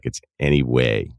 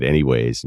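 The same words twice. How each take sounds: First: "anyway" said low, ending on the vowel; retold correction: "anyway", no final S; anyway without S. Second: "anyways" said low, with a final S; "anyways" finished with an added S. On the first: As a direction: imitate a correction, "anyway" with the S dropped. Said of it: "and she was like, "It's anyway". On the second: Retold or imitated. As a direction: casually say "anyways", S on the end. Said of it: "I said, "Anyways," and she was like".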